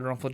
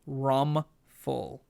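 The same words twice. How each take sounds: First: The name is said quickly and blurred. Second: The name is said slowly and clearly.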